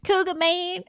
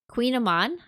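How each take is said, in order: First: The word begins with a sound like 'cougar'. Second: The word begins with a sound like 'queen'. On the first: The speaker calls it wrong. "I used to think it was like Cougar Man" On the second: The speaker calls it right. "I said that right?"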